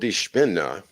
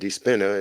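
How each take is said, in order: First: It is said with a German pronunciation. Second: It is said with an American English pronunciation. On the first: "in German" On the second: "if you want to say it in American English"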